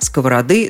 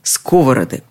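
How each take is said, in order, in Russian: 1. Ударение на последнем слоге. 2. Ударение на первом слоге. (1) "Ударение на последнем слоге" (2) "ударение переезжает на первый слог"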